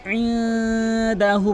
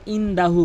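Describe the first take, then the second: First: ইনদাহু higher, from the throat, long hummed n; correct Ayn. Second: ইনদাহু with plain short "in"; common mispronunciation. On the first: Teacher correcting learners, slow ইনদাহু with throat Ayn. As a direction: chant ইনদাহু slowly, squeezed Ayn and held n. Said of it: "ইনদাহু বলতে হবে". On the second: Teacher showing the common error, plain short ইনদাহু. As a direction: say ইনদাহু simply, without Ayn. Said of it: "অধিকাংশ লোক ইনদাহু বলে". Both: Shown as a demonstration.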